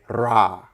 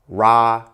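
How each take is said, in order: First: The r is a single tongue tap. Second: The r is a plain English r. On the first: "we say ra, because the R rolls" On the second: "instead of saying ra"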